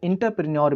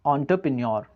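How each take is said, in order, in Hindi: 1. पहला अक्षर 'in' जैसा सुनाई देता है। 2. पहला अक्षर 'on' जैसा सुनाई देता है। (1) "कई लोग इंटरप्रेन्योर भी कहते हैं, तो ये गलत है" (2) "इंटर नहीं होता, वो होता है ऑन्टर"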